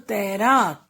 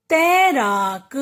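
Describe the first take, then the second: First: Said in the usual way. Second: "तैराक" split slowly as तै-रा-क; teacher's drawn-out "तैराक"; sounding out. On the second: Shown as a demonstration. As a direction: stretch each syllable of "तैराक". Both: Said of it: "कुछ ए के शब्द भी हैं".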